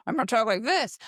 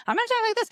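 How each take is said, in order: First: First voice, close to usual pitch; role-play voice. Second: Very high put-on voice; different role-play voice. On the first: Parent practicing different voices with a child, measured first voice. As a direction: demonstrate a measured starting voice. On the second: Parent practicing different voices with a child, very high voice. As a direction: jump right up into a silly high register. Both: Shown as a demonstration. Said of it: "let's speak in different voices".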